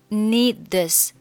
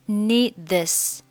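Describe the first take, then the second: Both takes have the same delivery.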